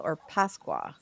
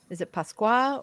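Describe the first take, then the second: First: Pasqua with the emphasis moved; stress on other syllable. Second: Pasqua with one syllable emphasized; stress on PAS or QUA. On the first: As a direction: say Pasqua as the alternative option. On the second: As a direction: say Pasqua as one option of two. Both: Shown as a demonstration. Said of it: "where's the emphasis? Is it on pas or qua?".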